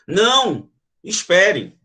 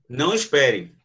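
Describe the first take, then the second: First: There is a pause after the first word. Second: The two words run together without a pause. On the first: The listener is asked to wait. "Na primeira, provavelmente alguém está indo embora e eu digo, não, espere" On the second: The listener is told not to wait. "Se eu não coloco a vírgula, é o contrário"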